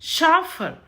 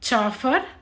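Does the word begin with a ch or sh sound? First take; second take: sh; ch. First: It begins with a sh sound. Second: It begins with a ch sound. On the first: The speaker calls it right. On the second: The speaker calls it wrong. "చాఫర్ కాదు"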